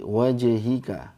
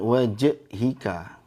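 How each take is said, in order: First: The j bounces and links smoothly into hi. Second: The j ends with a glottal catch before hi. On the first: The speaker calls it right. "Nyambung ya langsung ke hi" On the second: The speaker calls it wrong. "Jangan dikasih hamzah"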